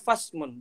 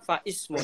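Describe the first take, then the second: First: The i sound is dropped, joining fa to smun. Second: The i sound is kept after fa. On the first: The speaker calls it right. "maka bacanya fasmun" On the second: The speaker calls it wrong. "bukan faismun"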